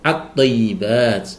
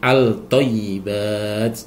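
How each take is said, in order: First: The L merges into a doubled t sound. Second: A distinct L is pronounced before the t. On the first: The speaker calls it right. "harus idgham syamsiyah, dimasukkan ke dalam huruf syamsiyah" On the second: The speaker calls it wrong. "Tidak boleh"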